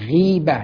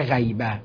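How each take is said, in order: First: The first consonant is followed by an i vowel. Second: The first consonant is followed by an a vowel. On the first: The speaker calls it right. "به کسر المعجمه ... مکسوره" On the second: The speaker calls it wrong. "نه"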